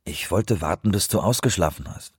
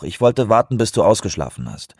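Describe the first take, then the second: First: Said in the usual way. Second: Raised, insistent justification; insistent excuse. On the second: A narrator's reading. Colleague defending himself to an irritated caller, insistent.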